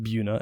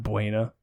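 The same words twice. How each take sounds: First: Buna said as BYOO-nuh; "Buna" with a long oo, like the start of beauty; local pronunciation. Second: Buena said as BWAY-nuh; "Buena" with a w glide and an ay vowel; Spanish-style pronunciation. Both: Shown as a demonstration. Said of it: "we pronounce it Buna and not Buena".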